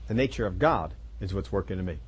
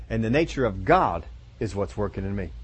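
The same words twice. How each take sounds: First: Softer, low repeat of the line; soft echo. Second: Said in the usual way. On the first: Real, not acted. Preacher echoing his point back to the congregation, softer. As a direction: let the repeat sink in, quieter. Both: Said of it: "repeated for emphasis".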